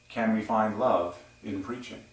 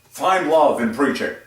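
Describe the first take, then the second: First: It is said in a soft, gentle voice. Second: It is said in a forceful, commanding voice.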